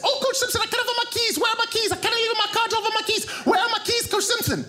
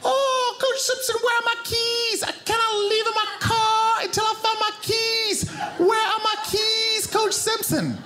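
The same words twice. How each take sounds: First: Exaggerated high-pitched panic at full tilt; hammed-up frantic impression, quick and very high; frantic Zambian woman. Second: Very high mimicked woman's voice, drawn out; slow-motion version of a frantic woman; slowed-down impression. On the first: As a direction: imitate her as a rapid, piercingly high babble. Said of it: "which sounded like this". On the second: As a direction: draw out each word in a high comic wail. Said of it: "Let me slow it down".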